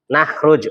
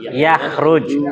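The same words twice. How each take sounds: First: Nakhruj said starting on an n sound; with nun. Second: Yakhruj said starting on a y sound. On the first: Reading the Arabic verb aloud to the class with nun. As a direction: begin Nakhruj with a clear n. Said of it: "Kenapa kok pakai iya, bukan pakai nun?". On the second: Student reading the verb with ya to the teacher. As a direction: begin Yakhruj with a clear y, not n. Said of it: "Kenapa kok pakai iya". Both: Shown as a demonstration.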